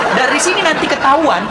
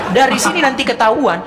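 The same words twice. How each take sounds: The two takes are said the same way.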